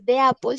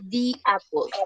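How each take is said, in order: First: The article is said with an 'eh' vowel. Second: The article is said with an 'ee' vowel. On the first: The speaker calls it wrong. "no se dice de apple" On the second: The speaker calls it right. "sino se dice di"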